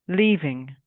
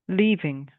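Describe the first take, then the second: Both takes have the same delivery.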